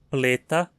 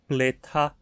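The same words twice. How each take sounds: First: The middle t has no puff of air. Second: The middle t has a puff of air. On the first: The speaker calls it right. "a versão não aspirada" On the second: The speaker calls it wrong. "Não dizemos nunca"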